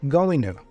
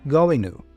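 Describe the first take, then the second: First: The word 'to' is said with a reduced vowel. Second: The word 'to' is said with a reduced vowel.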